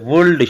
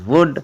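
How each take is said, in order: First: The L is pronounced. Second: The L is silent. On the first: The speaker calls it wrong. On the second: The speaker calls it right.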